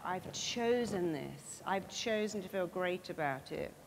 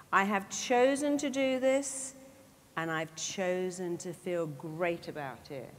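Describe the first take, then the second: First: Said in the usual way. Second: "I have chosen" rings out louder, then "chosen to feel great" comes slower and weighty; emphatic declaration. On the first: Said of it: "it's down to you to say that". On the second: Shown as a demonstration. Speaker gives the audience a life-changing sentence, louder then slower. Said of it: "a sentence that will change your life".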